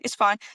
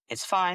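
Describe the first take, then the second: First: It sounds irritated and rushed. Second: It sounds relaxed and unhurried. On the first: The speaker is impatient for the other person to calm down. The speaker calls it wrong. "sounding like you're slightly irritated. It's sounding that you're slightly in a rush" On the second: There is no pressure and the other person can take their time. The speaker calls it right. "I've just sat back in my chair and just kind of said"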